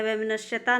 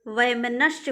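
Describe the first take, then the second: First: वैमनस्यता with an added -taa; wrong form वैमनस्यता. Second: वैमनस्य ending on -sya; correct form वैमनस्य. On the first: Teacher rejects the form, extra taa on वैमनस्यता. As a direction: end वैमनस्यता on long taa. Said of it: "नहीं". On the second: Teacher gives students the correct word, वैमनस्य ending in sya. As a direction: say वैमनस्य with no -taa. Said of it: "होता है". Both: Shown as a demonstration.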